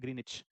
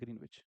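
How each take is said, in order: First: No 'w' sound is heard in the middle. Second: A 'w' sound is heard in the middle. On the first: The speaker calls it right. "डब्लू silent होता है इसमें" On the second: The speaker calls it wrong. "इसको ग्रीनविच नहीं कहते वैसे, मैं आपकी वजह से बोल दे रहा हूँ"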